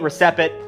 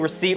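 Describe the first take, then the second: First: The P is sounded out in the word. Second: The P is silent in the word.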